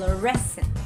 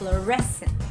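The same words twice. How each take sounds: First: The stress is on the second syllable. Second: The stress is on the second syllable.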